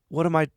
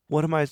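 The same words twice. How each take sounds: The two takes are said the same way.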